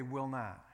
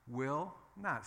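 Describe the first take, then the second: First: WILL leaned on, falling; stress on WILL. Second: NOT leaned on, falling; stress on NOT. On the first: Preacher modelling the phrase, stress on WILL. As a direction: hit the word Will. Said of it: "say this with me". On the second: Preacher drilling the congregation, stress on NOT. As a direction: hit the word not. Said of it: "Say, "Will not". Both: Shown as a demonstration.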